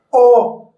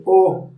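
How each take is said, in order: First: "O" lifted, held and projected; fully voiced vowel. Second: "O" short and understated; weakly pronounced vowel. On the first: Coach shows correct vocalization, a full held "O". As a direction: give "O" its full, sustained sound. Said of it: "se dice O". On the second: Coach shows how not to vocalize, a weak short "O". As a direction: say "O" small, without projecting it. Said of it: "practicar la pronunciación de las vocales". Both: Shown as a demonstration.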